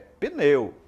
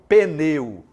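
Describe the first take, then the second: First: The P and N are said together. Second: An extra vowel comes between P and N. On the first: The speaker calls it right. "É pneu" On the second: The speaker calls it wrong. "não pneu"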